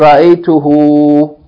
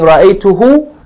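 First: The final vowel is held for two counts. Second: The final vowel is short. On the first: The speaker calls it right. "you say" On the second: The speaker calls it wrong. "Instead of saying"

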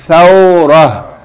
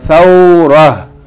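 First: The word ends with a soft h sound. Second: The same.

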